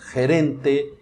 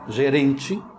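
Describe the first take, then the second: First: It begins with a throaty h-like sound. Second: It begins with a soft zh sound. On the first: The speaker calls it right. "Aí pronunciamos gerente" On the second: The speaker calls it wrong. "se eu pronuncio gerente e estou falando com um hispanofalante, ele não vai entender"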